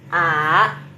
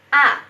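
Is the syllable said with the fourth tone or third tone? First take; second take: third tone; fourth tone. First: The syllable is said with a low, dipping third tone. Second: The syllable is said with a sharp, abrupt falling tone. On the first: "nada ketiga ya. Nada ketiga bacanya bagaimana? ... Langsung ke bawah gitu ya" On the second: "Nada keempat ya. ... Kayak menyentak"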